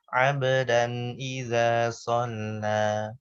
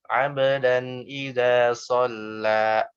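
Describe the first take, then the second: First: The final vowel ends cleanly at normal length. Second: The final vowel ends in a glottal stop. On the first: The speaker calls it right. "Jadi yang benar gimana?" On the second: The speaker calls it wrong. "ada hamzah"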